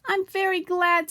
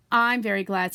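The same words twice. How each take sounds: First: High, loud and slow with delight; happy. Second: Lightly pleased, in the usual pitch; a modest little echo of joy; happy. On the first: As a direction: beam it out, pleased with yourself. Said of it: "said Pooh happily". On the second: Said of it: "said Piglet happily". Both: A narrator's reading.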